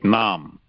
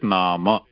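First: The word ends on the consonant m. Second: The word ends with a vowel after m. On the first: This is the Hindi way of saying it. "in Hindi when you write the character it is a strong ending like nam" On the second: This is the Sanskrit way of saying it. "but here it is nama"

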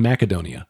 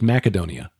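First: The C is said with a K sound. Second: The C is said with a K sound.

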